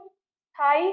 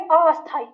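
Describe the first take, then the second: First: The word starts directly with the s sound. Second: A vowel sound is added before the s. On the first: The speaker calls it right. "तो ये आपका सही उच्चारण है।" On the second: The speaker calls it wrong. "तो बोलते हैं अस्थाई"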